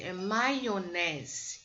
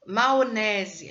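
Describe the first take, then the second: First: "maionese" with a clear "mai", very slow; correct pronunciation, slow. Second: "Maionese" as "maonese", loud; wrong pronunciation demo. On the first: Teacher correcting slowly to "maionese". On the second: Teacher showing the mistake "Maionese" as "maonese". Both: Shown as a demonstration.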